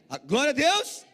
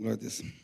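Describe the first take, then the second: First: It is said loudly, with fiery energy. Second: It is said flatly, with little energy.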